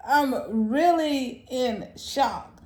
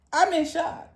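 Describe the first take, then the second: First: Really stretched out slowly, stunned. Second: Said in the usual way. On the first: Real, not acted. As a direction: drag every word out in disbelief.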